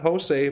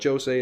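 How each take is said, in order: First: The name is said in a non-Portuguese way. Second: The name is said in a Portuguese way. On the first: The speaker calls it wrong. "it's not Jose" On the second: The speaker calls it right. "but Jose indeed"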